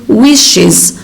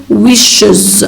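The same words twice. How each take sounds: First: "wishes" slowly with a clear "iz"; iz ending. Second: "wishes" slowly with a dull "uhz" ending; wrong ending. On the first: Teacher giving the correct form, "wishes" ending in iz. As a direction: say "wishes" as "wish-iz". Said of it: "we say wishes". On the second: Teacher showing the mistake, "wishes" ending in uhz. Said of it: "We don't say wishes". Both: Shown as a demonstration.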